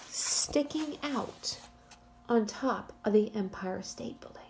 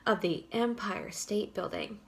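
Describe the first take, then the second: First: Hushed, secretive whisper. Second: Said in the usual way. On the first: Shown as a demonstration. Teacher whispers to build suspense.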